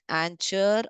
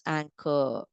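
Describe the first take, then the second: First: The middle consonant is a 'ch' sound. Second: The middle consonant is a 'k' sound. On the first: The speaker calls it wrong. "It's not anchor" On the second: The speaker calls it right. "It's anchor"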